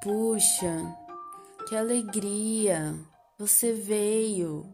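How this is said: The line is delivered in a sad, downcast tone. "A minha leitura agora de triste não foi muito boa"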